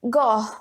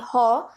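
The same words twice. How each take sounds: First: The name is said with an English pronunciation. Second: The name is said with a Dutch pronunciation. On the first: "English say it as Gogh" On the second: "As per Dutch, it shall be Gogh"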